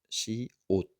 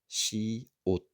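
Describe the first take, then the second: Both takes have the same delivery.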